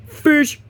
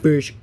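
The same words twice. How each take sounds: First: Fish called out high and loud; excited. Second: Said in the usual way. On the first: Shown as a demonstration. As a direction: announce Fish with a sudden leap. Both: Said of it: "repeated with emphasis".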